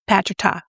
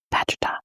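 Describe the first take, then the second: First: Said in the usual way. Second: Softly whispered brand name; mock-secret hush. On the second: Vlogger secretly naming the non-Tati brush, hushed.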